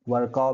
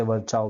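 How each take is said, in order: First: वर्काउ said with a hard k: var-kau; वर्काउ, k sound in the middle, ending kau; Virchow as Varkau. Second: वर्चाओ said with a ch sound: var-chao; वर्चाओ, ch in the middle, ending chao; Virchow as Varchao. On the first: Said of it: "वर्काउ भी बोलते हैं कुछ लोग". (वर्काउ, बीच में क की आवाज़) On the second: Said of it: "इसे वर्चाओ भी बोलते हैं". (वर्चाओ, बीच में च की आवाज़) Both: Shown as a demonstration.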